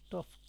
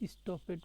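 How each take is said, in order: First: The ending is joined without an extra syllable. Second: The ending is said as a separate syllable. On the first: This is the modern way of saying it. "এখন স্টফড" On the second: This is the older way of reading it. "স্টপেড করতাম"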